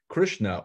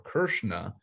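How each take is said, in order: First: The name is said with an English pronunciation. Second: The name is said with a Sanskrit pronunciation.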